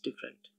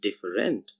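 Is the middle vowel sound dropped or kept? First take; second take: dropped; kept. First: The middle vowel sound is dropped. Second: The middle vowel sound is kept. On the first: "it's said as different" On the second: "actually written as different"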